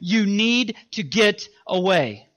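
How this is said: It is said very firmly and forcefully.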